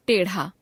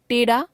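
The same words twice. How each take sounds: First: टेढ़ा with aspirated flap ढ़; टेढ़ा as ṭeṛha, pitch dropping. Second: टेढ़ा said as टेड़ा, rising; टेढ़ा without aspiration, end lifted. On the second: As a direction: drop the breath of ढ़ in टेढ़ा. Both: Shown as a demonstration. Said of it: "ड़ और ढ़ की अशुद्धियां".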